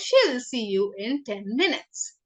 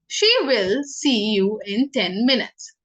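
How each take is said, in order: First: 'She will' is contracted into one syllable. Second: 'She will' is said as two full words.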